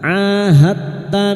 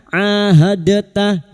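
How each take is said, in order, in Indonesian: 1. Huruf d langsung menyatu dengan t. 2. Ada bunyi vokal di antara d dan t. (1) "Sifat qalqalanya hilang karena kita masuk pada huruf berikutnya" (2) "jangan dibaca ahadata ya"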